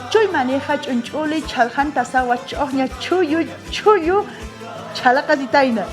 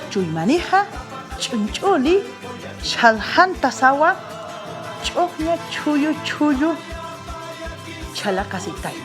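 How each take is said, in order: First: The tongue twister is said quickly. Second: The tongue twister is said at moderate speed. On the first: "Ahora sí, más rápido" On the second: "un poco más rápido"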